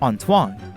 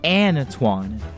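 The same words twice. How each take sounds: First: The A vowel is a softer French sound. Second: The A vowel is a more active American sound. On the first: "the French who speak it with a softer tone" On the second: "In American English, we tend to use a more active A sound"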